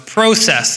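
The word is said the Canadian way.

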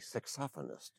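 It is said the British way. "The British say saxophonist"

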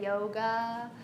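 It is said in a Southern US accent.

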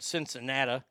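It is said with a Midwestern pronunciation. "as people in the Midwest would call it"

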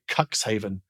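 It is said the British way.

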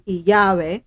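The word begins with a Y-like sound. This is how it is said in some countries. "It sounds like a Y, right? In some countries"

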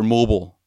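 It is said in a crude New York accent.

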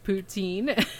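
The word is said with an English pronunciation. "And I call it poutine"

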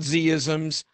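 The letter Z is said as zee. "I guess that's the American pronunciation"

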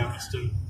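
The voice falls at the end like a statement. It is a remark that needs no answer.

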